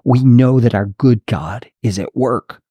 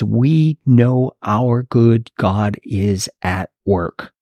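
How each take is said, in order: First: It is said smoothly without pauses. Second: It is said with pauses between words.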